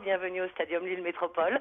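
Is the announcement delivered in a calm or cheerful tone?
calm. It is said in a calm, subdued tone. "Mais vous ne faites pas sur ce ton-là"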